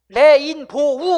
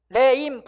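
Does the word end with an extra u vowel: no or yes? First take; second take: yes; no. First: It ends with an added u vowel. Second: It ends on a plain o vowel. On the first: The speaker calls it wrong. "레인보우 아니고" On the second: The speaker calls it right. "레인보 이렇게 하는 거야"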